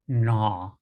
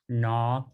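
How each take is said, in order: First: It is made at the back, falling. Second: It is made at the front of the mouth. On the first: "make it in the back of our throat and make it a downtone going down" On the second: "that's made pretty much to the front of our mouth"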